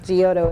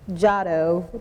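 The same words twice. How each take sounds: First: The name is pronounced as it is spelled. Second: The name is not pronounced as it is spelled. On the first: "is how it's phonetically spelled" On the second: "It's Giotto"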